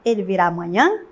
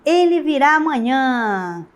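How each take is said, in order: First: It is said with questioning intonation. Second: It is said with lively, emotional exclamatory intonation. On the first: It asks whether he will come tomorrow. "se fosse uma interrogativa" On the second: It conveys feeling and emotion about his coming. "Quando eu coloco o ponto de exclamação"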